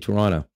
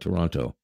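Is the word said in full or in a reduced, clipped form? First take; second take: reduced; full. First: The word is said quickly in a clipped form. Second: Every sound of the word is said in full. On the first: It makes the speaker sound like a local. The speaker calls it right. "hope that no one thinks you're a tourist, then you say" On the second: It marks the speaker as a tourist. The speaker calls it wrong. "If you ever come here and you want people to know you're a tourist, you call it"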